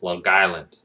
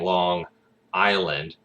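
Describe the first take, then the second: First: The two words are blended together. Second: The two words are said separately. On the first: "you guys just blend the words together" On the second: "instead of saying Long Island"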